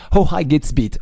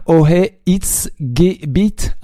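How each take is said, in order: First: "Hoheitsgebiet" said as one word, copying the correction; "Hoheitsgebiet" repeated in one go, German stress on the first syllable. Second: "Ohe It's Gebet" slow, halting, broken into three separate chunks; "Ohe It's Gebet" sounded out very slowly, the German word mangled. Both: Real, not acted. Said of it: "Sorry for my, uh, German accent".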